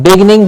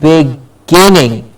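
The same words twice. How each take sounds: First: "beginning" squashed to "BIG-ning"; quick "beginning" swallowed to "bigning"; wrong pronunciation. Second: "beginning" slowly, stretched as big-GIN-ning; drawn-out "beginning" with stress on GIN; careful pronunciation. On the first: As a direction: say "beginning" in two syllables, middle vowel dropped. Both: Shown as a demonstration. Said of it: "Not beginning, but".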